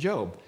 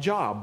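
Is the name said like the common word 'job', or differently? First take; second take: differently; common word. First: It sounds different from the ordinary word job. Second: It sounds like the ordinary English word job. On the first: This is how the name is actually pronounced. The speaker calls it right. "but we pronounce it Job" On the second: This is how the spelling suggests reading it. The speaker calls it wrong. "in English looks like Job"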